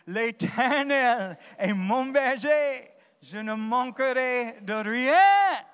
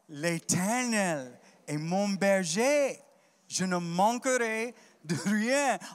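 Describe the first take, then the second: First: It is said more loudly. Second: It is said at normal volume.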